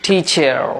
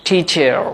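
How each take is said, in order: The two takes are said the same way.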